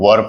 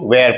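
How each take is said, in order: First: The word rhymes with 'fur', with a short vowel. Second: The word rhymes with 'air', with a gliding vowel. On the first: The speaker calls it right. "इसको हम लोग वर पढ़ते हैं" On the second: The speaker calls it wrong. "कई सारे बच्चे इसको वेयर पढ़ते हैं"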